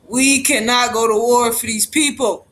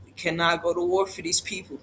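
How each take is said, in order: First: Louder, punching each word; firm, raised insistence; forceful plea. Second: Low, soft and grave; hushed, somber warning; quiet plea. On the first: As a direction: drive it home to the crowd. Repeats plea, now forcefully. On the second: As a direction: say it under your breath, heavy with worry. Repeats plea, first softly. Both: Real, not acted.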